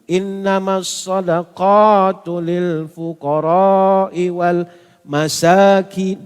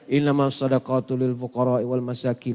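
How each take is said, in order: First: The long vowels are drawn out at length. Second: The vowels are kept short and quick. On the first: This is how the Prophet recited it. The speaker calls it right. "Nabi membacanya dengan panjang" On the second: It is read like an ordinary book. The speaker calls it wrong. "Macam baca buku"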